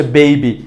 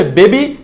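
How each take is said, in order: First: বেবি as "bei-bi"; correct pronunciation. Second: বেবি as "be-bi"; pure e in বেবি; wrong pronunciation. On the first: Teacher reviewing the correction, বেবি with ei. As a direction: slide e into i in বেবি. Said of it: "সঠিকটা হচ্ছে". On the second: Teacher reviewing the mistake, বেবি with plain e. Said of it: "ভুলটা হচ্ছে". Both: Shown as a demonstration.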